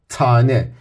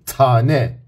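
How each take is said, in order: No difference in how they are said.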